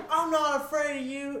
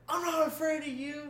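First: High, louder mock bravado breaking into laughter; laughing bravado. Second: High-pitched mock bravado, a bit wobbly; mock brave. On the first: Retelling the ghost boast to friends, louder through laughter. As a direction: repeat the boast while cracking up. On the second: Telling an unseen ghost in the kitchen, high mock defiance. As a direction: act tough at nothing, pitched up.

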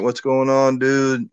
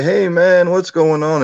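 First: Said in the usual way. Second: High, loud Southern drawl greeting; friendly Southern drawl hello. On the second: Retold or imitated. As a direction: imitate a buddy's Southern drawl. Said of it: "in that southern drawl that he has".

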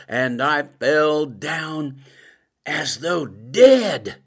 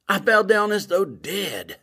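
First: Slow, weighty, each word drawn out; slow solemn reading. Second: Said in the usual way. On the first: Shown as a demonstration. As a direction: read the verse slowly as scripture. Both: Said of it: "It says".

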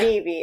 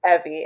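First: "Evie" with a long ee opening; the rejected name "Evie", said EE-vee; EE-vee pronunciation. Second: "Evie" with a short e opening; the correct name "Evie", said EH-vee; EH-vee pronunciation. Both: Retold or imitated. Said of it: "He always says that".

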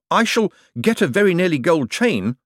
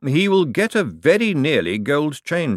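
First: Higher, eager, lightly voiced Moist; Moist's voice. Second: Slower, drier lightly voiced lord; Vetinari's dry echo. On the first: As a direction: toss it off proudly. Moist boasting, quoted. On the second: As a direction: Vetinari echoing Moist to his secretary, dry and slow. Vetinari echoes Moist drily. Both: A narrator's reading.

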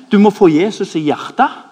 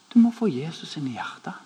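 First: «Du må få Jesus i hjertet» thrown back loud and higher in disbelief; mocking echo. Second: «Du må få Jesus inn i hjertet» said softly, rising gently at the end; soft plea. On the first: Preacher mocking friend's line to the angry guard, loud disbelief. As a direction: quote him back, scandalised and loud. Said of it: "kulminerer du hele katastrofen med". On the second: Retold or imitated. Friend gently urging the angry parking guard, soft and kind. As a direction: tell him kindly and softly. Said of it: "og så sier han".

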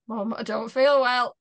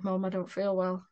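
First: Retold plea to mum, higher and louder; imitating a poorly child nagging mum; insistent complaint. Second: Said in the usual way. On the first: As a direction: press mum harder for attention. Repeats complaint to distracted mum.

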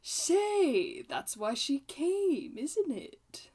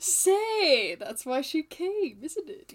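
First: Slow, drawn-out line with a high start; movie quote intonation. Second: High, loud opening, then a slow line; movie quote intonation. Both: Shown as a demonstration. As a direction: act the line like the film. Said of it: "Give me the intonation".

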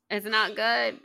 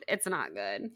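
First: Said in the usual way. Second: Sad murmur. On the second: Real, not acted. Host lamenting Nate's situation, low sad murmur. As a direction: lower and softer, NOT leaned on.

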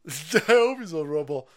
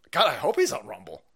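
First: Louder, laughing repeat. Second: Said in the usual way. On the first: Real, not acted. Host cracks up hoping a guest is on Rumble, laughing. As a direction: crack up as you say it.

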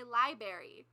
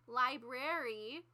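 First: "library" with the first r dropped, LIE-berry; mispronounced library. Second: "library" slowly, both r's sounded, LIE-brair-ee; careful standard pronunciation. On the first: Mimicking what teachers said on announcements, mispronounced library. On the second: Quoting the teachers' announcements, careful standard pronunciation. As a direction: say "library" drawn out with the first r kept. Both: Retold or imitated. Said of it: "but they would say library".

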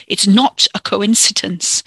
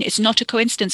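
First: Slow, loud, angry contradiction; snarled. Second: Quick, grudging giving in; exasperated concession. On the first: A narrator's reading. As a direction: snarl it back, weighing each word. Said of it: "Ricky snarled". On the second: Acted. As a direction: concede it impatiently mid-quarrel. Cousin concedes, exasperated, in quarrel.

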